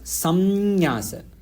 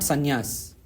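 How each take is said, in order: First: An m sound comes before the y. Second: An n sound comes before the y. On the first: "the actual pronunciation is samnyasa" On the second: "when we say it quickly, sometimes the ma becomes na"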